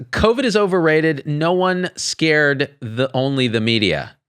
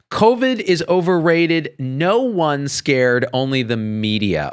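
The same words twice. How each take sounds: First: Mock reading. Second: Slow, deliberate reread; careful reread. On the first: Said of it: "I had to read that five times". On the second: Retold or imitated. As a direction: spell out the garbled words. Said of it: "I had to read that five times just to get it right".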